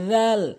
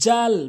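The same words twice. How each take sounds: First: The tongue tip touches the front teeth, th-like. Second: The first sound is a plain buzzing consonant. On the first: The speaker calls it right. "জিব্বার আগার সামনে দুটি দাঁতের আগাতে লাগাবেন" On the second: The speaker calls it wrong. "জাল ভুল উচ্চারণ"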